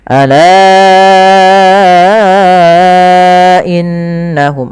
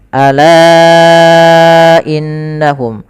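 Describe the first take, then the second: First: The long vowel is held excessively long. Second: The long vowel is held moderately long. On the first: The speaker calls it wrong. "ini udah terlalu berlebih" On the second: The speaker calls it right. "kita panjangkan empat harokat"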